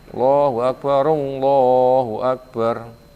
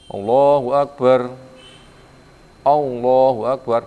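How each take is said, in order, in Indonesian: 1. Kedua frasa itu disambung tanpa jeda. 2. Kedua frasa itu dipisahkan oleh jeda. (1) "tapi apa?"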